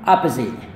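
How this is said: American accent, with an ah first vowel. "gaya Amerika yang pertama ini adalah A"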